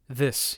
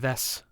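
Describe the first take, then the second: First: The vowel is a plain short i sound. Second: The vowel sounds close to an e sound. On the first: The speaker calls it wrong. "You don't say uh, this" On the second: The speaker calls it right. "You say this"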